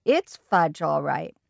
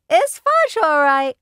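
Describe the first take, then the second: First: Said in the usual way. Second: Put-on high, loud little-kid echo; a toddler parroting his big brother proudly. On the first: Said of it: "I said". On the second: A narrator's reading. Fudge repeats his brother's words to Mom in a high loud toddler voice. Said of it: "my brother repeated".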